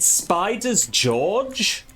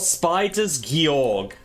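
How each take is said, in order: First: The name ends with a soft j sound. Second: The name ends with a hard g sound. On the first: "Do you pronounce it Spiders George" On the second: "or Spiders Georg? Because it's not spelt George"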